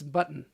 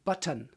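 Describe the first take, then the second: First: The T in the middle is soft, not hit. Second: The T in the middle is hit hard. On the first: The speaker calls it right. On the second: The speaker calls it wrong.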